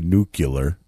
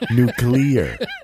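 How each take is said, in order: First: The word is said like 'nucular'. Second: The word is said like 'nuclear'. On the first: The speaker calls it wrong. "He didn't say nuclear" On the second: The speaker calls it right. "He said it correctly. He said nuclear"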